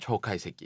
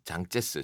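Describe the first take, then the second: First: The name is read with Japanese sounds. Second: The name is read with Chinese sounds. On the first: "일본어로는 초카이세키" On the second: "장제스 중국어로는"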